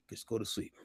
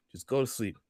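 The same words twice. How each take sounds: First: Hushed urging. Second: Said in the usual way. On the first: Retold or imitated. Urging friend to sleep.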